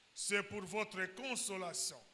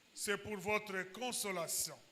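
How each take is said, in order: No difference in how they are said.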